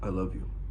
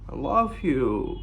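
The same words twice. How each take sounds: First: The voice stays level without rising. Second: The voice lilts and rises at the end. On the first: The speaker talks to the other as an equal. "It's not" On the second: The speaker is seeking rapport and approval. "lilting tonality which goes up"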